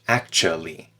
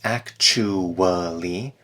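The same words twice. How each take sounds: First: It is said reduced with fewer syllables. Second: It is said fully with four syllables. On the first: "when you speak it in natural speech" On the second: "you could say this as actually with four syllables"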